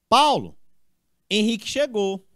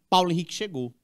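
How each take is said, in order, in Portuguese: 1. Há uma pausa depois do primeiro nome. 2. Os dois nomes são ditos juntos, sem pausa. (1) "Alguém está chamando Paulo, ó, e informando que Henrique chegou" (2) "Aqui é só uma pessoa"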